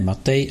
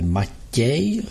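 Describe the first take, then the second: First: The t sound is hard, not softened. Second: The t sound is soft and palatalized. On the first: The speaker calls it wrong. "ne Matej" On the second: The speaker calls it right. "že je to T měkké"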